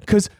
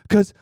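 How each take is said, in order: Both takes have the same delivery.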